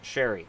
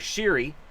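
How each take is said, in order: First: The first syllable sounds like 'share'. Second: The first syllable sounds like 'sheer'. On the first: The speaker calls it right. "it's pronounced Sherry" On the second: The speaker calls it wrong. "it's not Connor Sheary"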